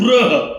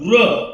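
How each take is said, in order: First: The first syllable has a 'ru' sound. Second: The same.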